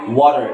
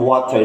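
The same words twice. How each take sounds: First: The middle consonant sounds like a D. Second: The middle consonant is a clear T. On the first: "You can say water" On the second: "instead of water"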